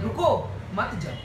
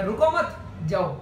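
First: रुको alone, a clear pause, then मत जाओ; pause after रुको. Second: रुको मत joined, a pause, then जाओ; pause after मत. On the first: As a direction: break right after रुको, मत जाओ lower. (रुको के बाद विराम, फिर मत जाओ) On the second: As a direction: say रुको मत together, break before जाओ. (रुको मत के बाद विराम, फिर जाओ) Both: Shown as a demonstration. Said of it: "pause बदलते ही मीनिंग बदलता है".

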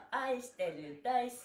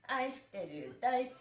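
No difference in how they are said.

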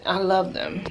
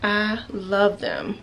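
First: Said in the usual way. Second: Drawn out slowly, relishing each word; lingering, dreamy repeat; slow savoring. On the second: Shown as a demonstration. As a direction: stretch it out like you mean it.

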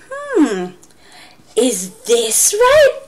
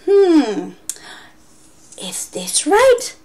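First: Slow, drawn-out teasing ask; mock-doubtful teacher; playful question. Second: High, slow whispered question; whispered teacher tease; teasing whisper. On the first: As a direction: tease the class. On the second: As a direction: coax the kids playfully. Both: Shown as a demonstration. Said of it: "I would say".

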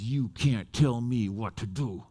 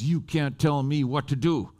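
First: Low, slow mock menace; retold defiant stare-down. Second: Retold slow defiance at usual pitch; mildly bristly, each word deliberate; bristly retort. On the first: Woman looks preacher right in the face, slow low defiance. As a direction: draw it out low and deliberate. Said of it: "looks me right in the face". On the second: Woman retorts to the preacher, mildly bristly. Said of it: "she got really bristly".

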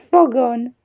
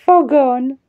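The two takes are said the same way.

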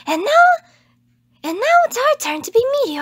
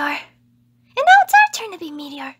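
First: Higher, loud and quick announcement; trying to sound confident for the line; confident idol attempt. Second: Loud, slow, deliberate proclamation; a try at a bold idol voice; confident idol attempt. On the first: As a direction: declare it boldly like a stage star. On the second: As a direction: announce it slowly with confidence. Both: Shown as a demonstration. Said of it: "I can't do confident".

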